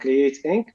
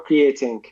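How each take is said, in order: First: It sounds like the two words create ink. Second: It sounds like the single word creatine. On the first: The company creates and incorporates. "like Create Inc. ... like Inc. like a incorporation" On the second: The company is the missing element that helps others grow. "or creating creatine ... the supplements creatine"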